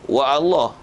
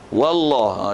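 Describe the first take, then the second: First: A glottal stop separates wa from Allah. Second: Wa runs straight into Allah without a break. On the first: The speaker calls it wrong. "dia tak bunyi wa Allah" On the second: The speaker calls it right. "kalau kita sambung"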